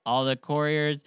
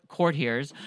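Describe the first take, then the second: First: Couriers said as kur-ee-ers, the wrong word; misread word. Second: Courtiers said as kor-tee-ers; corrected word. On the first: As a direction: slip into couriers, sounded koor-ee-ers. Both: Shown as a demonstration. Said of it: "cour-, courtiers".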